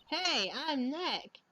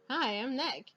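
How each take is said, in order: First: Introducing himself to the camera, slow and stressed; slower, stressed hey. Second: Said in the usual way. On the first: Shown as a demonstration. To a sound-triggered camera, a slow stretched greeting. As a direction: stretch out the hey, then say the name. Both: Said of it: "Maybe I'm not saying it loud enough".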